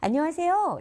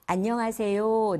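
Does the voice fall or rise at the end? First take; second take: rises; falls. First: The voice rises at the end. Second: The voice falls at the end.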